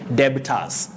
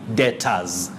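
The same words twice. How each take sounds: First: A b sound is heard before the t. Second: No b sound is heard before the t. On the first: The speaker calls it wrong. "they find themselves saying debtors" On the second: The speaker calls it right. "that letter B is silent. ... you say debtors"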